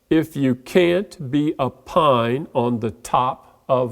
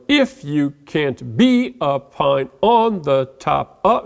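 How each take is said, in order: First: Each three-syllable group is stressed on its last syllable. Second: Each three-syllable group is stressed on its first syllable. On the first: The speaker calls it right. "let's emphasize the last syllable" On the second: The speaker calls it wrong. "If I accented the first one like I did up here"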